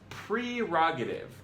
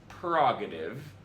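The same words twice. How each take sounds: First: The first syllable sounds like 'pre'. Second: The first syllable sounds like 'per'. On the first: The speaker calls it right. "It's prerogative, like precognition" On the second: The speaker calls it wrong. "It's not prerogative, as so aptly captured by [name]"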